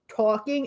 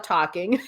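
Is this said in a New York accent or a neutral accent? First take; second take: New York; neutral. First: It is said with a strong New York accent. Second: It is said with a neutral broadcast accent. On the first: "my New York accent" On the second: "is now"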